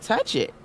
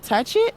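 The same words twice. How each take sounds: First: Said in the usual way. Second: Put-on high, louder child's question rising at the end; a little boy asking permission; high eager kid's voice; son asking. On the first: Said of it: "I said". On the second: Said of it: "And he said".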